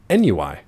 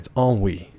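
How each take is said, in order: First: The word is pronounced letter by letter as spelled. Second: The word is pronounced in its usual standard form. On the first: The speaker has only seen the word written. The speaker calls it wrong. "seen the word ennui spelled out, but he'd never heard it pronounced" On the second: The speaker has heard the word spoken. The speaker calls it right. "by the way, it's ennui"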